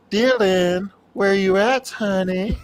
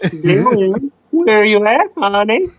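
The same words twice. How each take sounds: First: High, teasing Freddy voice; Freddy voice demo. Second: Slightly higher copy of the Freddy line. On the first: Showing a friend how Freddy should call Dylan, high and teasing. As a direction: coo like Freddy calling Dylan. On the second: Friend repeats the Freddy line on request, lightly voiced. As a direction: repeat the teasing Freddy call. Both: Shown as a demonstration. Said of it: "Do go".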